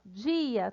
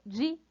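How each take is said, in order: First: Said in the usual way. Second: "dia" broken apart as di, a; split into syllables. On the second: Shown as a demonstration. Teacher showing a hiatus, "dia" syllable by syllable. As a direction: pause between the two vowels of "dia": di... a. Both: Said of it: "vai uma pra cada sílaba".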